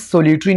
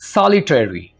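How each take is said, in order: First: The first vowel is a long 'oh'. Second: The first vowel is an open 'aw'. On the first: The speaker calls it wrong. "इसको आपने सोलिटरी नहीं कहना" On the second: The speaker calls it right.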